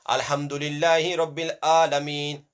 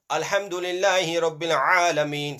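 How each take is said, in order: First: Chanted, ALAMEEN opening on a plain vowel; Hamza reading. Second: Chanted, throaty Ayn in ALAMEEN; Ayn reading. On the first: Teacher reading for pupils to compare, plain-vowel ALAMEEN. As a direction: chant ALAMEEN without any throat squeeze. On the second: Teacher reading for pupils to compare, throaty Ayn. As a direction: squeeze the first A of ALAMEEN in the throat. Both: Shown as a demonstration. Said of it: "See the difference?".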